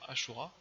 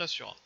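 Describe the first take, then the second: First: The middle consonant is a 'sh' sound. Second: The middle consonant is an 's' sound. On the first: It sounds nicer and classier. "je préfère dire Ashura" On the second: It matches how the name is written. "ça s'écrit Asura"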